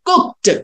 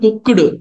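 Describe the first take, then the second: First: The ending is pronounced as a t sound. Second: The ending is pronounced as a d sound. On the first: The speaker calls it right. "టానా చెప్పాలి" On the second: The speaker calls it wrong. "నాట్"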